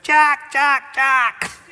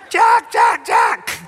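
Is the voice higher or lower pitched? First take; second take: lower; higher. First: It is said in a lower-pitched voice. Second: It is said in a higher-pitched voice.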